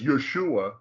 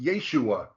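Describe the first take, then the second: First: The first vowel is a short 'eh' sound. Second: The first vowel is a long 'ay' sound. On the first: The speaker calls it wrong. "shows that they are pronouncing it as Yeshua" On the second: The speaker calls it right. "it's supposed to be pronounced Yeshua"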